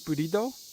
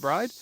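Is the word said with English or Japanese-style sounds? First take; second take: Japanese; English. First: It has three syllables with added vowels. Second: It is one syllable with a consonant cluster. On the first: "in Japanese they pronounce it burido, which just sounds really weird" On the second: "so I'm just going to call it bride"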